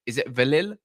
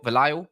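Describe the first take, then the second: First: Valil said "vil-ILL", questioning; name with short i. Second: Valil said "vuh-LYLE", questioning; name with long i. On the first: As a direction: try Valil with both vowels as short i. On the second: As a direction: try Valil with a long "eye" in the second syllable. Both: Shown as a demonstration. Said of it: "I don't wanna butcher your name".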